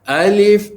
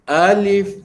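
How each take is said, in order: First: The first vowel is drawn out long. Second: The same.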